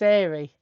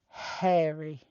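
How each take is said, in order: First: The first h sound is dropped, London style. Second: The first h sound is clearly pronounced.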